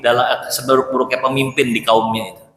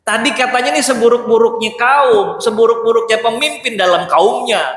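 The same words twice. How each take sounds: First: Said in the usual way. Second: Puzzled disbelief. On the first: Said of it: "Ini orang yang Rasulullah bilang". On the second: Retold or imitated. Aisyah puzzling aloud over the Prophet's gentle words, higher and incredulous. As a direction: sound like you can't square what you heard.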